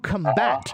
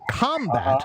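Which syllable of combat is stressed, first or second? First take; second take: second; first. First: The stress is on the second syllable. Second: The stress is on the first syllable. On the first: It is a verb meaning to fight. "to combat is a verb of fighting" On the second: It is a noun meaning fighting. "if I put the accent on the first syllable, combat means fighting"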